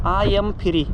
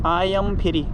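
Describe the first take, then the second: The two takes are said the same way.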